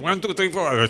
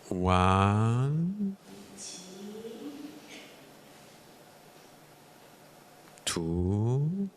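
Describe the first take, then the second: First: The numbers are counted quickly. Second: The numbers are counted slowly.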